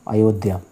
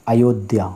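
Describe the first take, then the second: No difference in how they are said.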